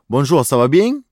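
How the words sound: It is said with a Marseille French accent.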